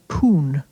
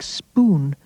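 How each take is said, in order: First: The word starts with a single p sound. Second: The word starts with the cluster sp. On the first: "will be reduced to poon" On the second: "A word like spoon"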